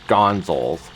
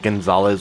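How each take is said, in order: First: The name ends in a short 'zals' sound. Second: The name ends in a full 'zalez' sound. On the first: The speaker didn't know it was a real name. The speaker calls it wrong. "I used to pronounce it as Gonzals" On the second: This is the actual name. The speaker calls it right. "instead of Gonzalez"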